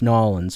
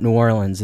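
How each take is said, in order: First: It has the local pronunciation. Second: It has a general, non-local pronunciation. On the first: The speaker calls it right. "It's New Orleans when you go down there" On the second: The speaker calls it wrong. "It's not New Orleans"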